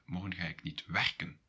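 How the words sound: The stress is on "werken".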